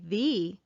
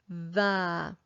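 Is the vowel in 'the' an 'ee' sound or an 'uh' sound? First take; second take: ee; uh. First: The vowel is a long 'ee' sound. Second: The vowel is a short 'uh' sound. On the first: "It is not incorrect to say the" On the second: "we sound like more experienced readers when we say the"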